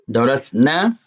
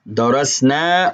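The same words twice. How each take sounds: First: The final vowel is cut short. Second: The final vowel is held long. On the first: Three or more women studied. "without the elongation" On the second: We studied. "The elongation is us"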